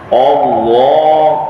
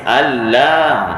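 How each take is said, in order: First: The first vowel is said heavy and full. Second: Both the first vowel and l are light. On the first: "ah dah salah" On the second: "sampai lam pun nipis. dah salah juga"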